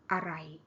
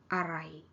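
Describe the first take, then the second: First: The first syllable is reduced and unstressed. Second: The same.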